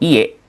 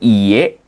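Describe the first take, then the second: First: The first vowel is held short. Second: The first vowel is held long. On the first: It means house. "kalau misalkan i-nya pendek jadi iye itu artinya rumah" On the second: It means no. "Ini kan dia eh, panjang ya"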